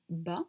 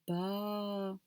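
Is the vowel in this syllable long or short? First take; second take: short; long. First: The vowel is short. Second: The vowel is held long. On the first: "à la base, c'était ba" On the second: "grâce à ce alif-là, ça va devenir ba"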